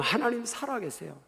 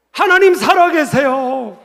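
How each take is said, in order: First: Hushed assurance. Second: High, loud, slow declaration; proclaiming shout. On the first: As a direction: say it quietly, as a settled truth. (낮고 조용하게 확신하듯) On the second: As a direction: cry it out to the whole congregation. Climactic proclamation to congregation. (크고 힘차게 선포하듯) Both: Real, not acted.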